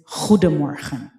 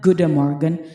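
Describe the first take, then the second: First: The first G is a harsh throaty sound. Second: The first G is a soft sound. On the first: The speaker calls it right. "but it is goedemorgen" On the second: The speaker calls it wrong. "hindi siya soft G na goedemorgen. It's not goedemorgen"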